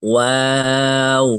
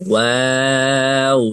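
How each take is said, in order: Both takes have the same delivery.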